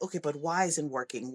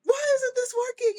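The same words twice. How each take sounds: First: Low, soft, composed questioning; instructor. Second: Very high mock-crying wail; frustrated. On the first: Retold or imitated. Instructor coming back to frustrated kids, calmly questioning. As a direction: ask it evenly, like a patient teacher. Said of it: "she came back and she was like". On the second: Coach showing adults may be frustrated and cry, frustrated. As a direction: wail it like an upset kid. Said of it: "sometimes we just need to be frustrated".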